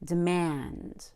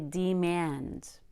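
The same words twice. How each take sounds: First: The second syllable is stressed and stretched. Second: Both syllables get equal stress. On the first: The speaker calls it right. "But we grow very big on mand. It's very stretched out" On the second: The speaker calls it wrong. "That would be equally stressing both syllables, which would be very un-American"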